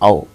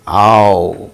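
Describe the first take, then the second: First: The diphthong is short and clipped. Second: The diphthong is long and drawn out. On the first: "We say ow in, in Indian languages" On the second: "Here in English, English diphthongs are longer"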